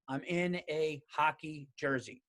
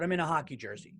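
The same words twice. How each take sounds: First: "I'm in a hockey jersey" slow, each word spaced out; "I'm in a hockey jersey" as a slow, measured admission; deliberate repeat. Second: Said in the usual way. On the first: Real, not acted. Deliberate repeat after "okay?.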